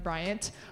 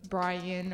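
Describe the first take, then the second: First: The name ends with a clear T sound. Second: The name ends without a T sound. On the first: The speaker calls it right. "or Bryant" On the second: The speaker calls it wrong. "not really focusing on the T, just the Brian"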